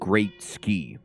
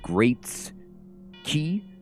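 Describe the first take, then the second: First: The s sound starts the second part. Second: The s sound ends the first part. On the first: The speaker calls it wrong. "A lot of people mispronounce it Great Ski" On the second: The speaker calls it right. "it's actually Great's key, like the monk energy ability"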